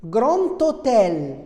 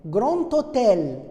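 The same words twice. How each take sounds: First: Grand hôtel with a clear T linking into hôtel; slow, careful grand-T-hôtel; liaison demo. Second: Grand hôtel again, T linked to hôtel; measured teacher repeat; liaison demo. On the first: Teacher shows the liaison to students, slow and careful. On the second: Teacher repeats the liaison for the class, measured. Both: Shown as a demonstration. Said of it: "On dit".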